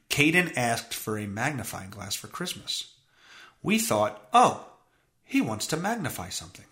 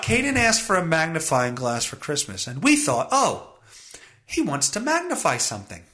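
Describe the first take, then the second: First: Low, level, uninflected reading; no inflection. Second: Animated, incredulous read of the quote; incredulous rereading. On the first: Host reads the parents' quote to listeners with no inflection. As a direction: read it out deadpan, giving no opinion. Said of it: "no inflection on my voice". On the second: Host rereads the parents' thought to listeners, incredulous. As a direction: read it back as if it is absurd. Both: Shown as a demonstration.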